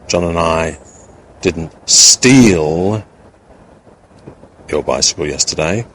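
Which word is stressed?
steal. The word steal is stressed. Something else was done to it, not stealing. "with the implication that we may not have stolen it, but we may have done something else in relation to it"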